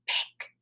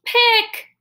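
First: Really soft voice. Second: Really loud. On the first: Teacher tells the class to say Pick softly, whispered. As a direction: Pick barely breathed, almost silent. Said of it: "Say pick in a really soft voice". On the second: Teacher tells the class to say Pick loudly, shouted. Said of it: "Now say it really loud". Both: Shown as a demonstration.

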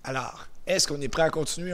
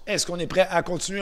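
First: Said in the usual way. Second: Louder and higher question to the class; rally the group, calling out with energy; energized question. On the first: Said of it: "J'aime ça quand vous répondez fort". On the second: Shown as a demonstration. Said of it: "Alors, on recommence". (question lancée fort pour motiver le groupe)

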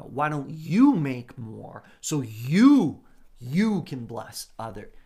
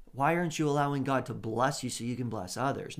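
First: "you" slowed, loud; louder, slower emphasis on "you"; stress on you. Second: Said in the usual way. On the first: Shown as a demonstration. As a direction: press hard on "you". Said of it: "No, no, no, no". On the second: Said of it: "Not so that".

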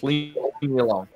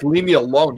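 First: A low, softer mock demon voice; lightly voiced spirit, pushed down and hushed; imitating the demon. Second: Said in the usual way. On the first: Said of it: "You can hear it. It goes". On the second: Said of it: "it was like".

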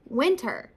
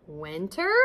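First: "winter" falling, as a firm answer; confirming. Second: "Winter?" lower, rising at the end; questioning. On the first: Skunk confirms the news. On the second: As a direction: ask "Winter?" with a questioning lift. Turtle questions the news. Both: A narrator's reading.

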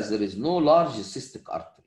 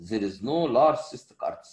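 First: Large slow and stressed, falling at the end; there is no large cystic artery, with large weighted and the line falling. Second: Large slow and stressed, the line rising at the end. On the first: Lecturer stating the rule to students, large stressed and slow. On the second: Lecturer repeating the rule for students, large stressed and rising. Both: Shown as a demonstration. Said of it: "القاعدة".

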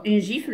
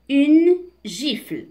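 First: Said in the usual way. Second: Slow, higher, louder teacher's reading; deliberate, emphatic word-by-word reading; slow model reading. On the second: Shown as a demonstration. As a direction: announce the word slowly for learners. Slow model reading, then explained.

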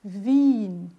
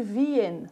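First: Wien as one long I, vin, no E; correct pronunciation. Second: Wien said as vi-en, E heard; wrong pronunciation. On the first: Shown as a demonstration. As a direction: stretch Wien into a single long I. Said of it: "Não, não, não". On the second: Retold or imitated. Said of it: "Tem muita gente que fala até hoje".

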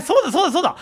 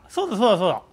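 First: High, loud, laughing realization; excited laughing. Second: Said in the usual way. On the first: Real, not acted. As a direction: burst out laughing as it clicks. Excited realization while gaming, laughing.

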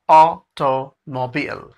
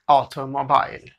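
First: ऑटोमोबाइल slowly, ending in "beel"; automobile with beel. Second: ऑटोमोबाइल ending in "bile"; wrong automobile. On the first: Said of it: "AU की जगह A double A R". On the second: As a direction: say ऑटोमोबाइल as "auto-mo-bile", rhyming with mile. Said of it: "नहीं।". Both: Shown as a demonstration.

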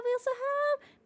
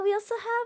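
First: A playful higher, quieter repeat; sing-song call much higher up; high soft sing-song. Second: Said in the usual way. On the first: Shown as a demonstration. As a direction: lift it high and soft, half sung. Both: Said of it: "repeats the line up high".

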